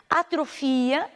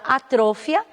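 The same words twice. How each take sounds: First: Atrofia stressed on FI; Portuguese pronunciation. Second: Atrófia stressed on TRO; Spanish pronunciation. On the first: Teacher giving the Portuguese word, stress on FI. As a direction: stretch FI in Atrofia. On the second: Teacher giving the Spanish word, stress on TRO. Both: Shown as a demonstration. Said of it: "em espanhol será".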